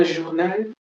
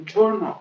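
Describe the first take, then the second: First: French "journal", zhoor-NAL; "journal" ending in a clear -nal; French pronunciation. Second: English "journal", JUR-nul; "journal" stressed on the first syllable; English pronunciation. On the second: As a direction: say "journal" with a hard j and weak last syllable. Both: Shown as a demonstration. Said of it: "Ok, c'est journal".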